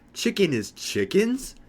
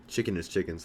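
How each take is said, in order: First: High, drawn-out scream of disbelief; slow, loud shriek of horrified discovery, rising to a question; retold scream. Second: Said in the usual way. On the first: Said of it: "I start screaming".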